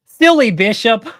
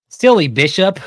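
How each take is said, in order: First: Higher, louder, slow sing-song taunt; stronger mockery. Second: Teasing sing-song jab; mock the bishop lightly, a bit raised. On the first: Repeating the taunt to listeners, higher and slower mocking. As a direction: stretch it out, rubbing it in. Mocking the money-demanding bishop. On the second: To listeners about the greedy bishop, a light mocking jab. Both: Real, not acted.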